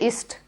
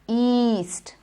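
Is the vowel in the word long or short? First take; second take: short; long. First: The vowel is a short i sound. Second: The vowel is a long ee sound. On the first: The speaker calls it wrong. "You don't say ist" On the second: The speaker calls it right. "The word east has the long E"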